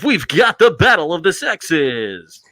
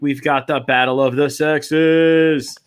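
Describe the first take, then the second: First: A strong, dramatic announcer voice. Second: A weak, half-hearted announcer voice. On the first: The speaker calls it right. "Better. That was better" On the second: The speaker calls it wrong. "That's the best announcer voice I can do"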